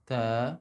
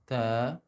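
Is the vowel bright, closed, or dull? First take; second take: dull; dull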